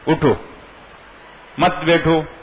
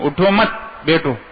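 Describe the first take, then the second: First: The pause comes after 'utho', meaning stand up. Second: The pause comes after 'mat', meaning sit down.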